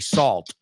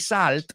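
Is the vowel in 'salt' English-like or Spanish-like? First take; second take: English-like; Spanish-like. First: The vowel sounds like the one in 'assault'. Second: The vowel sounds like a Spanish 'a'. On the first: The speaker calls it right. "we say salt" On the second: The speaker calls it wrong. "we don't say salt"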